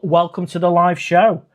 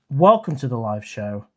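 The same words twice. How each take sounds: First: Bright loud host greeting; loud welcome. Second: Said in the usual way. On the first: Shown as a demonstration.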